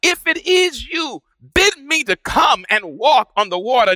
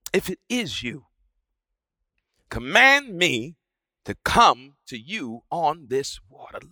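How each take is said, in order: First: High, urgent call across the storm; a pitched-up cry from Peter. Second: Soft, low plea to the Lord; quiet, tentative plea; hushed request. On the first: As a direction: call out to the figure on the water. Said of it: "he cries out". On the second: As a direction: ask it almost under the breath. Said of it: "he says". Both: A narrator's reading.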